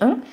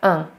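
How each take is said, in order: First: The nasal vowel is rounded, like a groan. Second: The nasal vowel is unrounded, like an e. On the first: This is the older pronunciation that has nearly disappeared. "amiket régen ön-nek ejtettek, tehát ez olyan, mint egy ilyen nyögés" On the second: This is how almost all French speakers say it today. "tehát evel inkább un"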